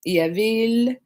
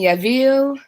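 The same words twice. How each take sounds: First: Said in the usual way. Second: Yavil said higher with a put-on foreign accent; accented name. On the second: Real, not acted. Reading a viewer's name off chat, Yavil with an accent. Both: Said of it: "I said it with an accent like that".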